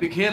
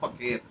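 First: The first syllable has an 'i' vowel. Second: The first syllable has an 'a' vowel. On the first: The speaker calls it wrong. "लेकिन उस्ताद ने कहा नहीं उर्दू गलत है" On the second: The speaker calls it right. "ये उर्दू सही है बखेर"

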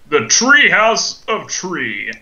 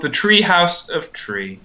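First: It is said in a grand, dramatic voice. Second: It is said in a plain, ordinary voice.

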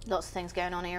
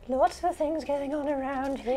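First: It is said in a deep, gruff voice. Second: It is said in a childlike voice.

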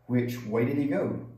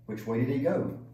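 No difference in how they are said.

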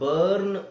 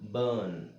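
First: A short vowel with the r sounded. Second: A long stretched vowel with the r silent. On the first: The speaker calls it wrong. "ಬರ್ನ್ ಅಂತ ಹೇಳೋದ್ರ ಬದಲು" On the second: The speaker calls it right. "ಅದೇ ತರ"

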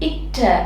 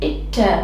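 First: The cluster is said with a t-like stop. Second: The same.

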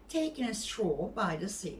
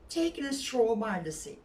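The two takes are said the same way.

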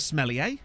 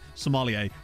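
First: The word starts with the sound 'smell'. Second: The word starts with the sound 'somm'. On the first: The speaker calls it wrong. "I don't think it's supposed to be pronounced smellier, but I feel like it's funnier to say it like that" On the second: The speaker calls it right. "a real high-class sommelier"

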